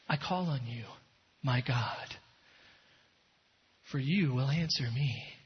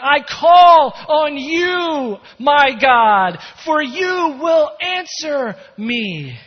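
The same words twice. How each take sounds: First: It is said calmly, without urgency. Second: It is said desperately, crying out.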